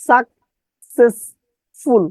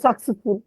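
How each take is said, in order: First: সাকসেসফুল very slow in three spaced chunks; distorted spelling pronunciation. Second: সাকসেসফুল run together as one word; normal pronunciation. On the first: Teacher drilling the spelling, slow chopped pronunciation. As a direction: split সাকসেসফুল into "sak, ses, ful" with pauses. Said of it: "বিকৃত ভাবে উচ্চারণ করবেন". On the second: Teacher giving what the chunks equal, normal pronunciation. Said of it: "সমান সমান". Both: Shown as a demonstration.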